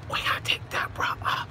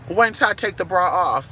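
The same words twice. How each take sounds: First: Whispered song line. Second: Said in the usual way. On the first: Shown as a demonstration. Host whispers the [name] lyric to viewers. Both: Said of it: "The Whisper song".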